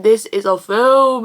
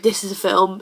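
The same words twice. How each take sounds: First: Slow, weighty stress on "this is a film"; emphatic. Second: Said in the usual way. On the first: Real, not acted. Sets this film above every film.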